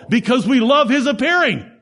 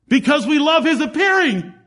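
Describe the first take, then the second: First: "appearing" stressed with a long falling close; preached punchline. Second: "appearing" pitched much higher, long fall; climactic repeat. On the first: Preacher landing his point to the congregation, stressing "appearing". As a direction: lean on "appearing" and let it fall. Repeats the key line. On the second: Preacher repeating his point to the congregation at a higher peak. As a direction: lift the whole line higher and ring out "appearing". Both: Acted.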